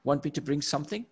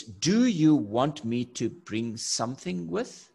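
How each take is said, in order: First: Quick, clipped-down "Want me to"; rapid everyday question with rising end; short casual form. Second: Slow, spelled-out "Do you want me to"; deliberate, fully worded question; long full form. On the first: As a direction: toss off the short question fast. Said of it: "I'll just say". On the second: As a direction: stretch out every word of the question. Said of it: "such a long sentence". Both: Shown as a demonstration.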